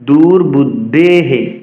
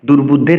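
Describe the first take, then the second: First: The word ends with a breathy 'he' echo. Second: The word ends with an 'r' sound. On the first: The speaker calls it right. "রর পরিবর্তে বিসর্গ তাহলে বলতে হবে দুর্বুদ্ধেহে" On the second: The speaker calls it wrong. "অষ্টম অক্ষরে যদি রহসন্ত থাকে তবে রহসন্তের পরিবর্তে আমাদের বিসর্গের ব্যবহার করতে হবে"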